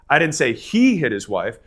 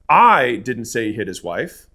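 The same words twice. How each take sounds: First: The stress is on the word 'he'. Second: The stress is on the word 'I'.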